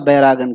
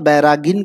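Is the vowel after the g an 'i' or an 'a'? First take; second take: a; i. First: The vowel after the g is 'a'. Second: The vowel after the g is 'i'. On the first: "या बैरागन कहिए" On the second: "बैरागिन कहिए"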